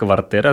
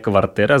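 First: A hard t is followed by a y vowel. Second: The same.

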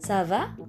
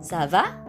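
First: The pitch rises slightly at the end. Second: The pitch rises slightly at the end.

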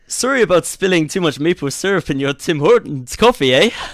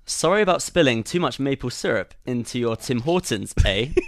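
First: It is said in a Canadian accent. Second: It is said in a British accent.

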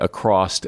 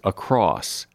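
First: The word ends with an added t sound. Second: The word ends with a plain s sound. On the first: The speaker calls it wrong. "as if there is an ED on the end" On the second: The speaker calls it right. "The word is across"

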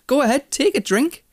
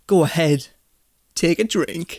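First: The voice sounds warm and generous. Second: The voice sounds cold and hostile. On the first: The speaker is happily offering their own drink. "you would just be like, oh, don't worry about it, just have some" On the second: The speaker does not really want the other person to drink. "But if I went"

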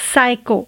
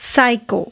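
No difference in how they are said.

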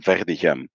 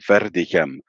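First: The R is a French-style throaty sound. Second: The R is a rolled, trilled sound. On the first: "I pronounce it with a French R" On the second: "If you would say it with a rolling R"

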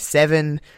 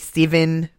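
First: It is said in the speaker's own accent. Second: It is said in another nationality's accent. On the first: This is how the speaker says it. "I say seven" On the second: This is how the other nationality says it. "They say seven"

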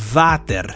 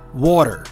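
First: The word begins with a buzzing V sound. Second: The word begins with a rounded W glide. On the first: The speaker calls it wrong. "that's wrong. That's incorrect pronunciation" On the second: The speaker calls it right. "I usually say water because that's the American version"

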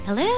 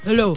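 First: It is said in a high falsetto voice. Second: It is said in a low, husky voice. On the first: It is the voice used when answering the phone. "parang siyang naka-falsetto" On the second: It is the ordinary everyday speaking voice. "But normally, she's like"

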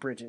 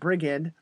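First: The middle consonant is a soft j sound. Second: The middle consonant is a hard g sound. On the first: The speaker calls it wrong. "But it's not Bridget" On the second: The speaker calls it right. "It's the hard G"

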